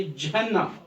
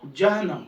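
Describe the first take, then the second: First: जहन्नम with a held double n, ja-han-nam; doubled consonant. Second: जहन्नम said loosely with a single n; unmarked pronunciation. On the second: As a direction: glide over the न in जहन्नम. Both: Shown as a demonstration. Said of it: "इस पर भी हम तशरीह डालेंगे".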